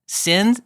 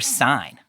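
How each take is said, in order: First: The vowel is short, as in bin. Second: The vowel is a diphthong, as in sign. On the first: "would you say sin" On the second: "or sign, like Sinai?"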